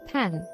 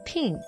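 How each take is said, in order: First: The vowel is low and open, as in pan. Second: The vowel is raised, sounding close to pin. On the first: "pan 이걸" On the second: "약간 pin 이렇게 발음을 하는 거죠"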